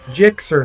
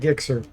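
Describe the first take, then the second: First: The name starts with a soft j sound. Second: The name starts with a hard g sound. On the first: The speaker calls it right. "but it's Jixer" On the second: The speaker calls it wrong. "I still always want to call you Gixer"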